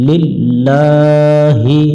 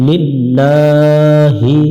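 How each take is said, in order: Both takes have the same delivery.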